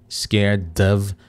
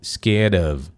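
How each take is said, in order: First: The d is a full d sound. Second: The d is a quick tapped r-like sound. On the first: "pode conectar com o som do D normal" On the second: "conectar com um somzinho parecido com o nosso R"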